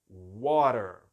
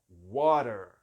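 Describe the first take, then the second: Both takes have the same delivery.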